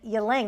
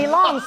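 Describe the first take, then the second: First: The second syllable has an 'ah' vowel, 'lang'. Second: The second syllable has an 'oh' vowel, 'long'. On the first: The speaker calls it wrong. "for years, I have been saying Ylang" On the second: The speaker calls it right. "So there should be an O in there"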